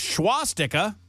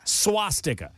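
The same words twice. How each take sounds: First: The word begins with an 'sh' sound. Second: The word begins with a plain 's' sound. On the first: The speaker calls it wrong. "Do I pronounce that word correctly" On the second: The speaker calls it right. "There's no H"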